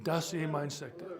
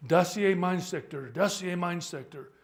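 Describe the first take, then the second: First: Said in the usual way. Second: German commander. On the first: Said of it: "so what does that mean?". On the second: Acted. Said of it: "commander says to him".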